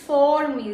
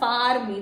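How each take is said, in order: First: The vowel in the first word sounds like 'or'. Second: The vowel in the first word sounds like 'ah'. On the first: The speaker calls it right. "this is for me" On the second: The speaker calls it wrong. "it's not far me"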